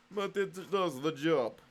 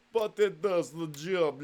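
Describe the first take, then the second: First: Put-on slow repeat in a light Russian accent; mock Russian accent. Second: Slow, lightly put-on Russian accent; mock Russian accent. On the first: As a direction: say "But it does the job" again like a comrade. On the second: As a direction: drawl "but it does the job" like a Russian comrade. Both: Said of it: "stop the Russian voice".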